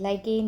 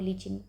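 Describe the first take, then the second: First: The first syllable sounds like 'lie', ending 'ken'. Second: The first syllable sounds like 'lee', ending 'chin'. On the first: The speaker calls it right. "That is लाइकेन" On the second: The speaker calls it wrong. "जिसको आप बहुत ही ज़्यादा गलत pronounce करते हो, लीचिन बोलते हो"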